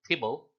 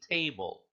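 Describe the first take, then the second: First: The first vowel is clipped short. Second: The first vowel is drawn out long. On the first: The speaker calls it wrong. "You don't say tibble" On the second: The speaker calls it right. "you say table"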